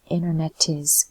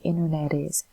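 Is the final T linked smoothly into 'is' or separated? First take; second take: separated; linked. First: The T is said separately before 'is'. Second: The T rolls smoothly into 'is'. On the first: The speaker calls it wrong. "we don't say internet is" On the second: The speaker calls it right. "it also rolls. It has a rolling sound. So ... we say internet is"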